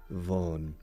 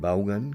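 First: It is said with an English voiced V. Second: It is said with a Spanish pronunciation. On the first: This is the original pronunciation. "ya tenemos la V inglesa" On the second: This is how people locally call him. "como me suelen llamar aquí"

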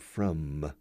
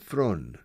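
First: The word ends with closed lips, an m sound. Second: The word ends with an n sound. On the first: The speaker calls it right. "He didn't say" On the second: The speaker calls it wrong. "F-R-O-N. He didn't close his mouth with the M"

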